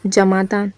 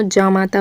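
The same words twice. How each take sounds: First: जमाता with a short first vowel; mispronounced word. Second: जामाता with a long first vowel; corrected pronunciation. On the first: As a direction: say जमाता as 'ja-maa-taa', short first 'a'. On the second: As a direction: say जामाता as 'jaa-maa-taa'. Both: Shown as a demonstration. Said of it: "तो जामाता होता है".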